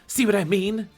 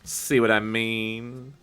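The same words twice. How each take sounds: First: It is said only a little smugly. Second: It is said in a much smugger tone.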